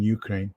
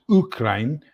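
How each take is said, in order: First: Ukraine is said in an American pronunciation. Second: Ukraine is said in a non-American pronunciation. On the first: "we'll use the American pronunciation" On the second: "actually, it's Ukraine"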